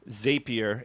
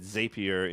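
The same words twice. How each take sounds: First: The first syllable sounds like 'zap'. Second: The first syllable sounds like 'zape'. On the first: The speaker calls it right. "I call it Zapier because it um Zapier. It's a, it's called a Zap" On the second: The speaker calls it wrong. "if you said Zapier and you call them Zaps, then this is like an argument"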